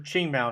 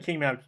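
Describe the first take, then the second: First: The name begins with a ch sound. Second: The name begins with a hard k sound. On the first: The speaker calls it right. "It's supposed to be Ching Mao" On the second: The speaker calls it wrong. "I always say King because I just see that Q, and that's not how you pronounce it"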